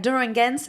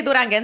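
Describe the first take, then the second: First: Put-on "Duranguense" with a British accent. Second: Said in the usual way. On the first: Recalling a childhood video, "Duranguense" in a British accent. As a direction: say "Duranguense" as a little British kid would, questioning. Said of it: "in my British accent". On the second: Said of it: "I wanted to say Duranguense".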